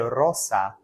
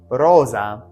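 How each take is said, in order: First: The middle consonant is a hissing s sound. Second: The middle consonant is a buzzing z sound. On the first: This is the classical Latin pronunciation. "In Latin, the Z sound does not exist like that. So you say rosa" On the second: This is the Italian-style pronunciation. "This is the Italian. Notice that S is a Z sound"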